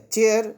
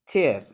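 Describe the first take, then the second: First: चेयर punched louder and higher on the ch; ch as in chair. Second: चेयर with a clear ch sound, said plainly; ch as in chair. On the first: Teacher stressing the ch sound to students, emphatic. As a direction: hit the ch of चेयर firmly. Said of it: "सीएच का pronunciation बिल्कुल अलग है". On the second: Teacher demonstrating chair to students, plain and clear. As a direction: show the ch in चेयर to the class. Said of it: "जैसे देखो सीएच". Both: Shown as a demonstration.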